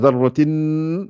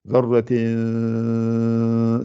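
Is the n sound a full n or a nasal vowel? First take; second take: full n; nasal vowel. First: The n is a full consonant with tongue contact. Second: The n is nasalized without tongue contact. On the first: The speaker calls it wrong. "je suis en train de faire avec un noun" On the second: The speaker calls it right. "C'est pas le noun. La langue n'est pas collée sur le palais"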